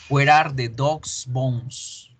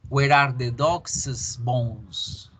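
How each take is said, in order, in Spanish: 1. 'Dog's' termina en una s simple. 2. 'Dog's' termina con una sílaba 'es' suave y extra. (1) "Número uno" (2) "Hacemos que el apóstrofe se convierta en un es. pero suavecito"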